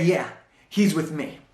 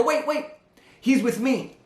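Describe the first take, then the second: First: Smiling confirmation. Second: High, hurried blurt, voice jumping up; urgent blurt. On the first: Employee calmly confirms to the elevator operator, smiling. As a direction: settle it with a confident smile. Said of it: "the same nod and the big smile". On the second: Young employee blurts to the elevator operator, high and urgent. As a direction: blurt it out before the door shuts. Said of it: "I blurt out and I go". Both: Retold or imitated.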